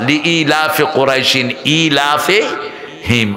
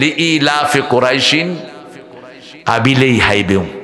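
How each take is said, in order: First: The word after quraishin is pronounced clearly. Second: The word after quraishin comes out distorted. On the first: The proper recitation. The speaker calls it right. "আমি বললাম না চাচা" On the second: An old learner's habitual recitation. The speaker calls it wrong. "আর উনি পড়তেছেন"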